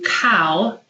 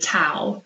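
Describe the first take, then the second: First: The first sound is made at the back. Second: The first sound is made at the front. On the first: The speaker calls it right. "instead of saying cow" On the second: The speaker calls it wrong. "take a back sound and make it in the front of the mouth"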